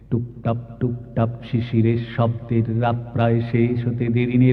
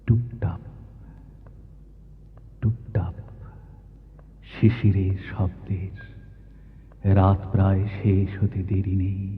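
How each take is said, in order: First: It is recited to a strict, even metrical beat. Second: It is recited softly, like slowly dripping dew. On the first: Only the verse meter is followed. The speaker calls it wrong. "এরকম করে কি শিশির ঝরে?" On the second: It evokes how dew actually falls. The speaker calls it right. "শিশির যেমন করে ঝরে"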